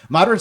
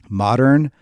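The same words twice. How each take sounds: First: The word is said quickly and hurriedly. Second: The word is said slowly and carefully. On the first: "Here's how I would say it fast" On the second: "with me being deliberate trying to say it"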